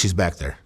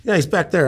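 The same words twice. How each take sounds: First: Hint of a Mexican accent in broken English. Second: Said in the usual way. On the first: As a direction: lightly imitate a Mexican speaking broken English. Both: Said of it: "in broken English".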